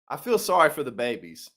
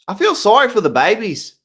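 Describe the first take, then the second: First: It is said in his normal voice. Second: It is said in an Australian accent.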